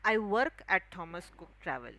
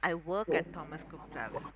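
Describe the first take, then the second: First: The consonants are pronounced with heavy stress. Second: The consonants are pronounced lightly, without stress. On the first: The speaker calls it wrong. "which we Maharashtrians usually read like" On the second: The speaker calls it right. "the actual pronunciation of it would be"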